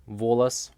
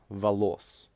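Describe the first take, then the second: First: "волос" stressed on the first о, VO-las; full first vowel in "волос", weak second; stress on first syllable. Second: "волос" stressed on the second о, va-LOS; stress on last syllable. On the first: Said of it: "The letter O changes pronunciation". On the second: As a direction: reduce the first vowel, land on the end of "волос". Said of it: "these words are spelled the exact same way". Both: Shown as a demonstration.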